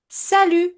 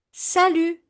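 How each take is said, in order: Both takes have the same delivery.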